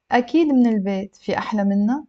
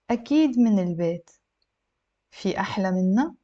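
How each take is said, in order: First: Fluent, straight on into the question; slightly brisk model reading; connected speech for learners; a little faster. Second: Careful model reading, pausing between sentences; measured, for language learners; a little slow. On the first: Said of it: "I'll read it a little bit faster". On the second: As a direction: read slowly with a questioning rise at the end. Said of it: "a little bit slow". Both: Shown as a demonstration.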